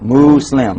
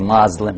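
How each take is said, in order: First: The first syllable sounds like 'moo'. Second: The first syllable sounds like 'moz'. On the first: The speaker calls it right. "Mu, say mu. Slim" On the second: The speaker calls it wrong.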